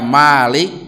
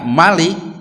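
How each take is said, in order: First: The first vowel is long. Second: The first vowel is short. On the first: The one who owns. "pakai alif" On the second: The one who is king. "Tapi kalau dibaca Malik"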